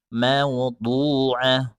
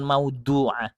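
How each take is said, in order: First: Maudu'ah, slow, with a heavy du; slow maudu'ah with a thick du; right maudu'ah. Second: Maudu'ah with a thin du; maudu'ah said light in the du; wrong maudu'ah. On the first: Teacher shows the right maudu'ah, slow and heavy. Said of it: "tapi maudu'ah". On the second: Teacher shows the wrong maudu'ah, thin du. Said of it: "bukan maudu'ah". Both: Shown as a demonstration.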